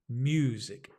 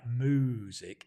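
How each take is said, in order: First: The first syllable sounds like mew, with a y. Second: The first syllable sounds like moo, without a y. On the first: The speaker calls it right. "It's mew. There's a y, you, as in you, mew" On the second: The speaker calls it wrong. "it's not moo. It's not the sound of a cow like music"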